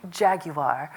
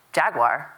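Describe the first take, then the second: First: "Jaguar." in British style, JAG-you-ah. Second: "Jaguar?" as a puzzled question, JAG-wahr; American Jaguar. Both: Retold or imitated. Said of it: "I've now said it wrong".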